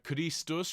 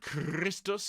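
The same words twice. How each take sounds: First: The R is a single quick flap. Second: The R is a rolled trill. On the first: The speaker calls it right. "We're going to use the front flip for the R" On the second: The speaker calls it wrong. "I don't want roll R's"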